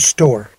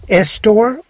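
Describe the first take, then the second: First: The word starts directly with the s. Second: An extra vowel is added before the s. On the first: The speaker calls it right. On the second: The speaker calls it wrong. "Is it Estore or store?"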